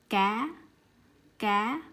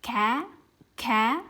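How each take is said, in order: First: "Cá" said lightly, no puff of air after c; soft unaspirated cá. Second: "cá" with a strong puff of air after c; English-style aspirated cá. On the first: Teacher contrasting Vietnamese and English c. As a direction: keep the c gentle in "Cá". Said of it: "I just say cá really slightly". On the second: Teacher showing the wrong English way. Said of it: "like the way I speak English". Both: Shown as a demonstration.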